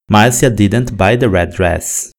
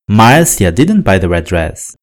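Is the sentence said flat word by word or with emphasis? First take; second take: flat; emphasis. First: Every word is said evenly, flat and mechanical. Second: One word stands out with clear emphasis. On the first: The speaker calls it wrong. "Se falada dessa maneira mecânica, a sentença ficará meio sem emoção" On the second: The speaker calls it right. "podemos enfatizar uma palavra ou outra na sentença"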